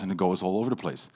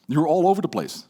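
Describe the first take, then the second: First: Low, level drone; monotone. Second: Bursting and scattered; louder, higher overexcited take; excited. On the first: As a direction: say it flat with no life. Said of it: "in a very monotone voice". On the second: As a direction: rush it out all fired up. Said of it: "You're very excited". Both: Shown as a demonstration.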